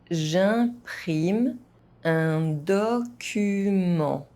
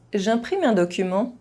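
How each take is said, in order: First: It is spoken at an ordinary, moderate pace. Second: It is spoken fast, with some sounds dropped. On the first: "at a normal pace" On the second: "fast, as a native speaker would do"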